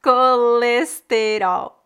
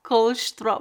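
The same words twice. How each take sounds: First: Very slow colesterol, every vowel open; careful teacher demo; slow Brazilian colesterol. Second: Colesterol clipped to kolʃtɾo; imitating European colesterol. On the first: Shown as a demonstration. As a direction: colesterol said in four full syllables. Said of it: "Em português do Brasil". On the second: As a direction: say colesterol with the vowels dropped. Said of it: "em Portugal você tem menos sílabas".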